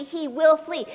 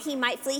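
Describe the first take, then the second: First: "will" punched higher, as a firm correction; stress on will. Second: Said in the usual way. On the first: Shown as a demonstration. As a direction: hit the word "will" with certainty.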